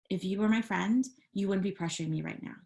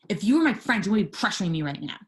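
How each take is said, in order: First: It sounds firm but calm. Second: It sounds harsh and hostile.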